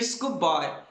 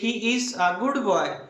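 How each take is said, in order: First: The words are shortened into a contraction. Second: Every word is said separately and in full.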